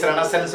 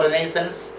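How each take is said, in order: First: "Renaissance" with the stress on the first syllable; first pronunciation variant. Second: "Renaissance" with the stress on the second syllable; alternative pronunciation. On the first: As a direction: say "Renaissance" as REN-uh-sonce. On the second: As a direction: say "Renaissance" as ri-NAY-sonce. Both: Shown as a demonstration. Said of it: "Renaissance or Renaissance".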